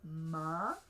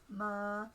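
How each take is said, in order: First: The pitch rises on the syllable. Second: The pitch stays level in the middle. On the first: "you can have a rising tone" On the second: "You can have a mid-tone"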